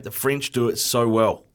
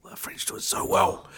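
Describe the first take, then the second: First: Said in the usual way. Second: Breathy whispered "so well". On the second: Shown as a demonstration. [name] whispering his love of French pastry. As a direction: whisper it like a secret. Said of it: "repeat in whisper".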